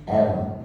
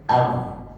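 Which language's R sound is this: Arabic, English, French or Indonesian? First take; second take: English; French. First: The R is said the English way, near 'w'. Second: The R is said the French way, like ghain. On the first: "huruf R di dalam bahasa Inggris, bacanya R" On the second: "bahasa Perancis itu lebih ke R, lebih ke ghin"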